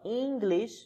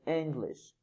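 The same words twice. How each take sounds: First: The first vowel is long. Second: The first vowel is short. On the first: The speaker calls it wrong. "It's not English" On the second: The speaker calls it right. "Because it's short. The sound is short"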